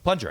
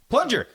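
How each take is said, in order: First: Said in the usual way. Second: High, louder exasperated retelling; mock frustrated call; exasperated repeat. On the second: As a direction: blurt it high, as if to someone not understanding. Repeats it louder after not being understood.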